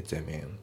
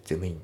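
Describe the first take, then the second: First: "ゼムイン" fused as "themin"; M slides into I in "ゼムイン"; linked pronunciation. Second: "ゼムイン" as separate "zemu in"; katakana-style "ゼムイン" with a full MU; unlinked pronunciation. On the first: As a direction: model "ゼムイン" without a break. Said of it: "リンキングで". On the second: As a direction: keep the words apart in "ゼムイン". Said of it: "じゃなくて". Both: Shown as a demonstration.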